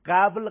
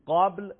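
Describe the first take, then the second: First: قبل with a thin ق and fronted "a"; loud mistaken قبل, flattened to a thin "qæbl"; wrong light ق. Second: قبل with a thick ق and dark open vowel; heavy ق. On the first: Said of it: "قبل غلطه". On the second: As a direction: say قبل full-mouthed, tongue root raised on ق. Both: Shown as a demonstration.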